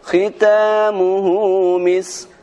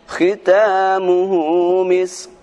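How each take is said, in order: No difference in how they are said.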